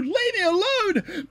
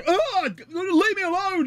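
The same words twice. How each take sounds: First: High, slow sobbing plea; crying plea. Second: High panicked yell; yelling for help. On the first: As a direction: whimper it out, drawn slow. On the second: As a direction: cry out to be left alone. Fleeing slaps, crying out. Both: Acted.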